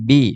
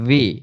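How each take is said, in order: First: It starts with a b sound made by both lips. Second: It starts with a v sound, teeth on the lip. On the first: The speaker calls it wrong. "আমরা এটাকে বলতাম বি" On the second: The speaker calls it right. "উপরের দাঁত নিচের ঠোঁটে লাগবে"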